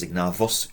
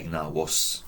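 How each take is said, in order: First: Ignavus with a hard English V, ig-NAH-vos. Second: Ignavus with a W, ig-NAH-wos. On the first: Teacher allowing the alternative, V sound in Ignavus. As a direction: buzz a true V in Ignavus. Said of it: "If you wanna do it as". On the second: Teacher giving own preferred way, W sound in Ignavus. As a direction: soften the V of Ignavus into a W. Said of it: "I say". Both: Shown as a demonstration.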